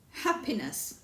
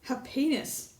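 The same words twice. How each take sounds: First: The stress is on the first syllable. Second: The stress is on the second syllable. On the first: The speaker calls it right. "The first syllable" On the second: The speaker calls it wrong. "The second syllable"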